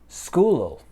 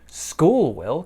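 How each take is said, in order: First: Will is reduced to ul, linked to school. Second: The word will is said in full.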